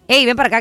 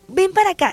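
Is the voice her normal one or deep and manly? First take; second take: deep manly; normal. First: It is said in a deep, manly voice. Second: It is said in her ordinary voice.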